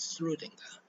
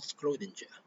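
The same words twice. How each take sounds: First: The name is said the Austrian German way. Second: The name is said the English way. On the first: The speaker calls it right. "Schrödinger is an Austrian, so it's pronounced as Schrödinger" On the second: The speaker calls it wrong. "not Schrödinger"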